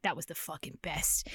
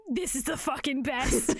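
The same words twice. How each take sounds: First: Low, softened recollection; understated awe. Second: "This is the fucking best" punched word by word; emphatic delight. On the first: Host recalls reading it at thirteen, low hushed awe. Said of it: "reading that when I was thirteen". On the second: Host rereading favorite scene, "This is the fucking best" said emphatically. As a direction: hit each word of "This is the fucking best" with relish. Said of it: "And reading it again". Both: Retold or imitated.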